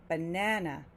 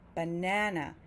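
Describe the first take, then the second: No difference in how they are said.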